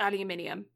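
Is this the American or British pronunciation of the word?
British. It is said with five syllables, ending -nium. "as opposed to aluminium"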